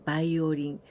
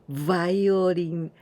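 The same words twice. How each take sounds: First: The word begins with a B sound. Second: The word begins with a V sound.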